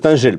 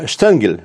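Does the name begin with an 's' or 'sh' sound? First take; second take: s; sh. First: The name begins with an 's' sound. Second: The name begins with a 'sh' sound. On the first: This is the name as read in French. "француз Стенжель" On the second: This is the original German form of the name. "Эльзасец. Вообще-то Штенгель"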